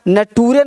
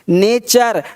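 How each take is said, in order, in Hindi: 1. बीच का व्यंजन 't' है, और यह 'toore' पर खत्म होता है। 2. बीच का व्यंजन 'ch' है, और यह 'cher' पर खत्म होता है। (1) "नटूरे नहीं बोलेंगे"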